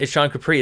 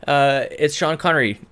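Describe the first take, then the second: First: Said in the usual way. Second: Name slip. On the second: Real, not acted. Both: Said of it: "No, it's not".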